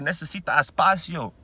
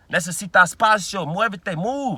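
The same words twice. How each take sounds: First: Said in the usual way. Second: The same Spanish, now louder and insistent; louder repeat. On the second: Retold or imitated. Telling a stranger to back off, a louder insistent repeat. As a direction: push harder the second time. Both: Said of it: "I had to tell the motherfucker".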